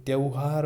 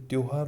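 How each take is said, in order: First: त्योहार mispronounced as त्यौहार with au; wrong pronunciation. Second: Said in the usual way. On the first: Shown as a demonstration. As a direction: widen the o of त्योहार into au. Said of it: "ऐसे मत करना है". (त्योहार में गलत औ की ध्वनि) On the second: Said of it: "simple सा सीधा त्योहार".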